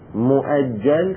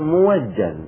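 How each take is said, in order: First: The word has a glottal stop in the middle. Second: The word has a w sound in the middle.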